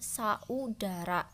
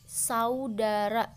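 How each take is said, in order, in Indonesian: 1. Vokal a dan u diucapkan sebagai dua suku kata. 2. Vokal a dan u menyatu menjadi satu suku kata.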